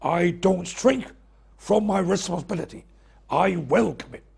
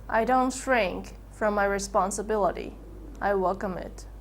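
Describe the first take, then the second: First: Firm and decisive. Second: Without conviction. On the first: [name] demonstrating a firm decisive declaration. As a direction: state it with full authority. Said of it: "Use firm and decisive tones of voice". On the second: [name] showing a weak unconvinced statement. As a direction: say it like you don't believe it. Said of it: "speaking without conviction and authority". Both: Shown as a demonstration.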